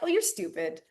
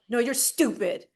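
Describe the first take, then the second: First: It is said in a nice, playful way. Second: It is said in a mean, hostile way.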